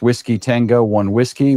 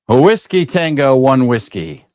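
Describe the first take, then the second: First: It is spoken at a normal, relaxed level. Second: It is spoken loudly with forceful energy. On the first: "This is me talking in my normal voice" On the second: "key up in this voice"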